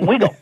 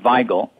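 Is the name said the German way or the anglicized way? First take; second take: anglicized; German. First: The name is said with an anglicized local pronunciation. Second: The name is said with its German pronunciation. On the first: This is the local altered form of the name. The speaker calls it wrong. "in Pittsburgh, we exercise right to mangle a name" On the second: This is how the name is properly pronounced. The speaker calls it right. "the correct way to pronounce his name is Weigel, because he was German"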